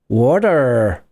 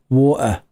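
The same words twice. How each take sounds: First: It is said with an American accent. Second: It is said with a British accent. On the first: "The Americans say" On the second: "And the Brits say"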